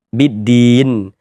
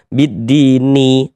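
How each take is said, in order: First: The word ends on a stopped n sound. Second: The word ends with a short i vowel. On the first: The speaker calls it right. "kalau berwakaf di huruf nun kita baca bidin" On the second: The speaker calls it wrong. "Jangan dibaca bidini, ... salah"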